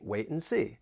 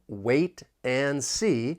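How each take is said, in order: First: The T is glottal and "and" becomes n. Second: Each word is said fully, with a clear T. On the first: The speaker calls it right. "I would say wait and see" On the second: The speaker calls it wrong. "but I'm not really going to say it like that"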